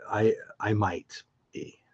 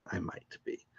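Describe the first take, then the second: First: Said in the usual way. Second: A teasing whispered repeat, much softer. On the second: Real, not acted. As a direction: whisper it like a secret hint. Teasing repeat of the same words.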